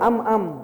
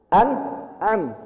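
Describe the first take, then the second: First: The syllables run together without a throat catch. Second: A throat catch separates the two syllables. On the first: The speaker calls it wrong. "Jangan baca am am" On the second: The speaker calls it right. "A itu di sini tenggorokan bawah. An, kemudian ain di tengah"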